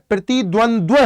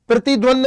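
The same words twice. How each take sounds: First: प्रतिद्वंद्व closed with a second dva sound; correct doubled dva. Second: प्रतिद्वंद ending on a bare nd, shown as the mistake; wrong form first. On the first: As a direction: add the final dva in प्रतिद्वंद्व, ending on -ndvə. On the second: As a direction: end प्रतिद्वंद clipped on nd with no extra va. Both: Shown as a demonstration. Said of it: "नहीं होता है".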